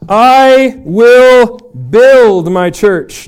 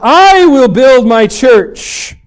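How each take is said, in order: First: The stress is on the word build. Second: The stress is on the word I.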